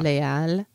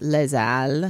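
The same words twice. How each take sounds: First: The s of les is silent, with no link. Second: The s of les links into the next word. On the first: The speaker calls it right. "very few things that don't liaise" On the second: The speaker calls it wrong. "It's not les al"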